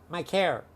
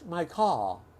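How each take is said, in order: First: It is said in a Chicago accent. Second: It is said in a British accent.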